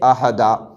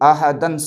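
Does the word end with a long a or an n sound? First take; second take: long a; n sound. First: The word ends with a long a vowel. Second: The word ends with an n sound. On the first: The reader stops on this word. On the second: Reading continues without stopping.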